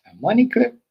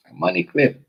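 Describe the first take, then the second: First: High, loud disbelieving squeak; much higher, loud mock astonishment; incredulous. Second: Higher, loud flat confirmation; raised, loud sardonic repeat; knowing scoff. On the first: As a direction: sound stunned and amused. Disbelief at the money clip. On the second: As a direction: land it like a punchline. Repeats in disbelief. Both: Real, not acted.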